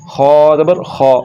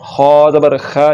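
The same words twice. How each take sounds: First: खौ thick and rounded, like "kho"; slow full-mouthed खौ; heavy KH. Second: खा light and open, like "kha"; flattened "kha" vowel in खा; wrongly thin KH. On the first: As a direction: fill the mouth on खौ. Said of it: "इसको ऊपर करेंगे". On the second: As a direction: end on a thin खा as the mistake. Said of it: "ये गलत है". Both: Shown as a demonstration.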